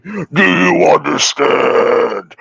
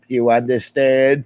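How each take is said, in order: First: Very slow, louder, drawn-out "Do you understand?"; mock menace. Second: Mock threat. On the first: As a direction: stretch "Do you understand?" out slowly like a movie villain. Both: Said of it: "He's like".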